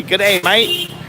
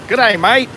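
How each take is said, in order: First: Light imitation of an Australian g'day; Australian greeting. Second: Mock Australian g'day, higher and a bit louder; Australian greeting. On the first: Tourist retelling a local's Australian greeting, lightly mimicked. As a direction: mimic the Aussie accent lightly, rising at the end. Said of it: "that guy just told me". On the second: Tourist quoting a local boy's Australian hello, playfully mimicked. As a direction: chirp the Aussie greeting with a lift at the end. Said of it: "he just walked by me and said".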